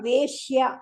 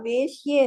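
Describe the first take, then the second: First: The word ends with an 'a' vowel. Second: The word ends with an 'e' vowel. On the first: The speaker calls it right. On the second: The speaker calls it wrong.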